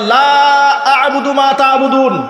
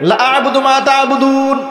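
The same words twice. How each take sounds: First: The first vowel is stretched out long. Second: The first vowel is cut short. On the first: It means I do not worship what you worship. The speaker calls it right. "যেখানে হওয়া দরকার" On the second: The meaning is changed. The speaker calls it wrong. "আপনি টান দিলেন না"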